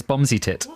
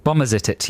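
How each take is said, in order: First: "Bomsitit" in three syllables, bom-zi-tit; shorter variant. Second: "Bomberzitit" with four syllables, bom-ber-zi-tit; longer variant. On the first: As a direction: drop the "ber", just "Bomsitit". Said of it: "the other one is". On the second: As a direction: give "Bomberzitit" its extra middle "ber". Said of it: "the other one is Bomsitit". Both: Shown as a demonstration.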